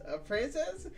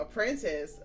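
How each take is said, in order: First: "princess" pitched up high in a rising question; mocking disbelief. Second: Said in the usual way. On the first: Shown as a demonstration.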